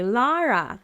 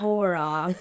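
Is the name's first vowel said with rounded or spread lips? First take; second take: spread; rounded. First: The first vowel is said with spread, smiling lips. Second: The first vowel is said with rounded lips. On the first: The speaker calls it right. "you have to smile when you say Lara" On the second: The speaker calls it wrong. "It's not Laura"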